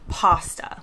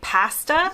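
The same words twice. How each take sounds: First: It is said with an American pronunciation. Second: It is said with a British pronunciation. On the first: "In the U S, we say" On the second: "In the U K, they say"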